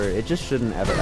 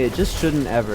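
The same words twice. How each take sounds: First: Quiet mutter. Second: Said in the usual way. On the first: Real, not acted.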